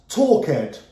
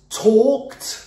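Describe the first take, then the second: First: The ending is said as an extra syllable. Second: The ending adds no extra syllable. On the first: The speaker calls it wrong. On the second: The speaker calls it right. "we only pronounce the D"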